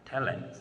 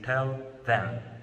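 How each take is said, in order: First: The word 'them' is reduced to 'em'. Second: The word 'them' is said in full. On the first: "We get tell him. Tell him. Sound more natural" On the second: "The actual form of tell him, it is tell them"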